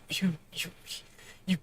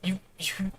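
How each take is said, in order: First: Breath gone, only a whisper left; throat closing, words barely voiced; tearful broken whisper; choked whisper. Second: Tearful, voice catching on each you; fighting back tears, barely getting the word out; quiet, choked stammer; choking up. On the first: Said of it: "The air is stiffening in my throat". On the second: Acted. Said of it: "claw back the moisture in my voice".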